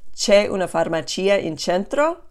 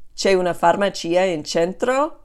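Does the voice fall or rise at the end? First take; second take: rises; rises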